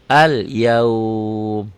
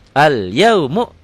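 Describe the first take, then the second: First: The word ends on a lengthened consonant. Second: The word ends with a short vowel. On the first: The reading stops at this word. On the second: The reading continues without stopping.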